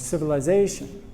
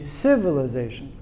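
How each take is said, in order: First: The stress falls on the fourth syllable. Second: The stress falls on a syllable other than the fourth. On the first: The speaker calls it right. "But the correct one is" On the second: The speaker calls it wrong. "if we stress this one, it would be civilization"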